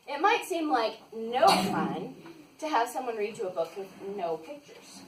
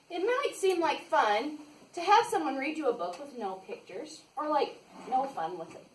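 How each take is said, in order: First: Slower, careful second take; slow, deliberate reread. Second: Said in the usual way. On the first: Shown as a demonstration. Reading to kids, retrying the line slowly. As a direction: read it again slowly and carefully. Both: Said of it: "No, let me try that again".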